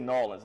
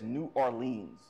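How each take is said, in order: First: The city name is run together and shortened. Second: The city name is said in full. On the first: This is how the older generation does not say it. "They don't say Nolens" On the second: This is how the older generation says it. "his generation says New Orleans"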